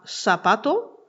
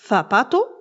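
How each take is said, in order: First: The first consonant is a plain 's' sound. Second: The first consonant is a lisped 'th' sound. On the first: This is how it is said in Latin America. "prononcés comme un S" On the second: This is how it is said in Spain. "en mettant la langue entre les dents"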